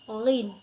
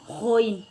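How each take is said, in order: First: The letter name is said with a softer sound. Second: The letter name is said with a harsher sound. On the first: The speaker calls it right. "ghin itu lebih lembut" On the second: The speaker calls it wrong. "Jangan ghoin, jangan ya, itu salah"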